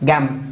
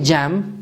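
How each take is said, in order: First: It begins with a hard g sound. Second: It begins with a soft j sound. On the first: The speaker calls it right. "ما کلمه چی را مد نظر میگیریم؟" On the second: The speaker calls it wrong. "این نمیگیم جم"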